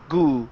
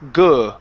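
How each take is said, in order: First: The vowel is a long oo sound. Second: The vowel is a short uh sound. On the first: The speaker calls it wrong. "You're saying good, goo. Instead of oo" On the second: The speaker calls it right. "it's uh, good"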